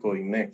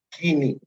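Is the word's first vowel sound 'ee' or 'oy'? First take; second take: oy; ee. First: The first vowel sounds like 'oy'. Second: The first vowel sounds like 'ee'. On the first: This is how Spanish speakers say it. The speaker calls it wrong. "no se dice koiné" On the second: This is how Greeks say it. The speaker calls it right. "se dice griego kini"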